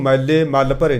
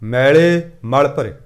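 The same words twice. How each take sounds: First: ਮੈਲੇ said quickly with a short, doubled L; wrong reading. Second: ਮੈਲੇ drawn out slowly with a single light L; slow, measured ਮੈਲੇ with a long open vowel; correct reading. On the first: Preacher showing the congregation how not to read it, ਮੈਲੇ with doubled L. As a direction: misread ਮੈਲੇ with a clipped first vowel and heavy L. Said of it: "ਨਹੀਂ ਪੜ੍ਹਨਾ". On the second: Preacher modelling scripture for the congregation, ਮੈਲੇ with long vowel. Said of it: "ਇਹਨੂੰ ਮੈਲੇ ਮਲ ਭਰੇ ਨਹੀਂ ਪੜ੍ਹਨਾ". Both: Shown as a demonstration.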